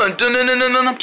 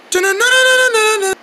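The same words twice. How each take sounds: First: Sung, dun-dun tune at a middle pitch; sung suspense sting. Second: Dun-dun tune sung very high; high sung sting. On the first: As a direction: chant a dramatic theme by mouth. Hums a dramatic tune. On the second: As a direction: chant the theme way up high. Repeats the tune much higher. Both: Pretend.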